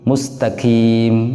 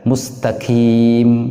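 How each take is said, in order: No difference in how they are said.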